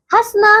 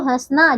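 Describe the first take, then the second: First: हंसना said has-na, unnasalised; no nasal vowel. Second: हंसना with nasal first vowel; nasalised vowel. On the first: Teacher showing wrong हंसना without nasal. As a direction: keep the nose out of हंसना. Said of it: "हंसना नहीं". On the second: Teacher correcting pupils, हंसना nasalised. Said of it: "चंद्र बिंदु कौन लगाएगा". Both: Shown as a demonstration.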